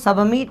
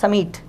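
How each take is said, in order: First: The b sound is clearly pronounced. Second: The b sound is left out. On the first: The speaker calls it wrong. "आपको सबमिट नहीं पढ़ना है" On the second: The speaker calls it right. "इसमें बी silent होता है, इसे पढ़ना है समीट"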